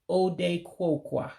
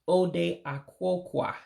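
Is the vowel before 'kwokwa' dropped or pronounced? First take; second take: dropped; pronounced. First: The vowel before kwokwa is dropped. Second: The vowel before kwokwa is pronounced. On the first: The speaker calls it right. "you have to drop the A in Akwokwa" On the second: The speaker calls it wrong. "it looks like it would be Ode Akwokwa, but that's not how you would pronounce it"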